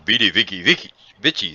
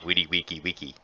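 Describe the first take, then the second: First: The words begin with a V sound. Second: The words begin with a W sound.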